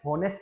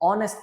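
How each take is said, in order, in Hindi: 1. शब्द की शुरुआत "h" की आवाज़ से होती है। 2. शब्द की शुरुआत स्वर की आवाज़ से होती है। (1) "हॉनेस्ट नहीं पढ़ता" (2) "ऑनेस्ट पढ़ता हूं, ह का साउंड नहीं आता"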